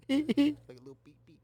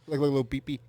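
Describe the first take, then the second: First: Giggling through the repeat; laughing. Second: Said in the usual way. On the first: Real, not acted. Cracking himself up over the burnt ash, laughing. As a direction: let the laugh take the line.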